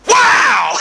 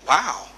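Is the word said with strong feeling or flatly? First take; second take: strong feeling; flatly. First: It is said with strong, excited feeling. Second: It is said flatly, without feeling.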